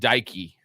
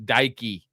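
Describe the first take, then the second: First: The surname is said as one blended word. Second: The surname is said as one blended word.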